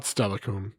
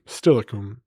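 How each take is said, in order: First: "Stellicum" with an open "Stel" as in "bell"; wrong pronunciation. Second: "Stilicum" as "STIL-uh-kum", short "i" as in "still"; right pronunciation. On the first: Streamer showing chat the wrong way, "Stellicum" with "Stel" as in "bell". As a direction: say "Stellicum" with the first vowel "e" like "tell". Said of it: "That's how that's pronounced. Not Stellicum". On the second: Streamer correcting chat on the place name, "Stilicum" as "still-uh-kum". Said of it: "That's how that's pronounced". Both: Shown as a demonstration.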